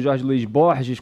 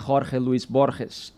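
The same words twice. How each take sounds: First: The name is pronounced with Portuguese sounds. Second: The name is pronounced with Spanish sounds. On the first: "como a gente fala aqui, aportuguesando o nome" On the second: "mas que tem a sua pronúncia espanhola"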